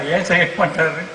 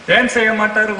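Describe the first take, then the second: First: Said in the usual way. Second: ஏன் stressed, the question pressed harder; emphatic repeat. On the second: Shown as a demonstration. Preacher insisting to the congregation: ஏன் punched. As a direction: push ஏன் hard the second time.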